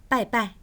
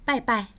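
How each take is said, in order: No difference in how they are said.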